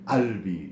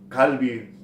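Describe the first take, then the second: First: The word begins with a glottal stop. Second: The word begins with a deep q sound. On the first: This is the everyday dialect form. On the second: This is the standard form.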